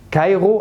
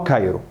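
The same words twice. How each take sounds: First: كايرو with a throaty gh, "kaygho"; first accepted form of كايرو, R as gh; guttural R variant. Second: كايرو with a tapped R, "kayro"; second accepted form of كايرو, plain Arabic R; tongue-tip R variant. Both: Shown as a demonstration. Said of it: "الاتنين صح".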